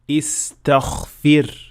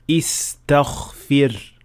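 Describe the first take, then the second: First: The gh sound is voiceless, like kha. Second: The same.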